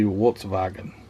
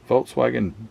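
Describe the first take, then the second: First: It is said with F and V sounds, German-style. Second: It is said with ordinary English sounds.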